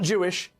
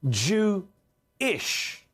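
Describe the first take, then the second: First: It is said as one smooth ordinary word. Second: It is split into Jew plus a separate ish.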